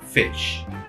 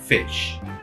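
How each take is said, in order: First: The vowel is a short sound near e. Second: The vowel is a short sound near e.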